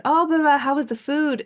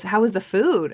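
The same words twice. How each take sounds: First: High, loud chirpy greeting; eager question. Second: Said in the usual way. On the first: Retold or imitated. Friend greeting her back from vacation, chirpy and high. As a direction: bounce up in excitement to ask. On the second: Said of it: "And he goes".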